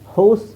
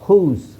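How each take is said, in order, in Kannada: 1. ಸ್ವರ 'ow' ಶಬ್ದ ಆಗಿದೆ. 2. ಸ್ವರ ಉದ್ದ 'oo' ಶಬ್ದ ಆಗಿದೆ. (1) "ಹೌಸ್ ಅಂತ ಹೇಳಲ್ಲ" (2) "ಓನ ಊ ಅಂತ ಹೇಳ್ತೀವಿ"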